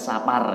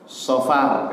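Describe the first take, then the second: First: The word has an a and a p sound. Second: The word has an o and an f sound. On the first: The speaker calls it wrong. "bukan Sapar ya" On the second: The speaker calls it right. "Yang benar Sofar ya"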